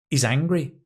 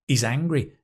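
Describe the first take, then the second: Both takes have the same delivery.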